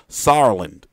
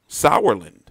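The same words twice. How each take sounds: First: The first syllable does not sound like sour. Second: The first syllable sounds like the word sour. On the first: The speaker calls it wrong. "if I try to say it how it's spelled" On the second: The speaker calls it right. "if I just pronounce it like sour"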